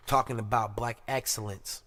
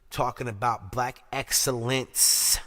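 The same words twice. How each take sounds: First: Said in the usual way. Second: Slow, weighted "Talking about black excellence"; emphatic repeat. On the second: Real, not acted. Host introducing good news, slowly stressing "excellence". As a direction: stretch and land hard on "excellence".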